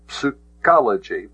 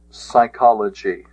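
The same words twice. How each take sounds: First: Psychology with the P sounded, as psoo-KOL-uh-jee; pronounced P. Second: Said in the usual way. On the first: Shown as a demonstration. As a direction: voice the silent P at the start of Psychology. Sounding out Greek psi in psychology.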